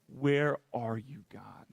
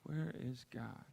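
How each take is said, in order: First: "Where are you, God?" slow, with the weight moved onto "you"; stress on you. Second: Said in the usual way. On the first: Shown as a demonstration. Frustrated believer turning the question on God, stress on "you". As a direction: lean on "you", not on "Where". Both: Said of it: "flipped the emphasis of that".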